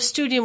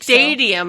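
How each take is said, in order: First: The first syllable sounds like 'stew'. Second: The first syllable sounds like 'stay'. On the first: The speaker calls it right. "no, studium like students" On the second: The speaker calls it wrong. "People were saying"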